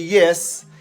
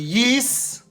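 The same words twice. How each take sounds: First: It is said in a plain, non-local accent. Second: It is said in a New Zealand accent.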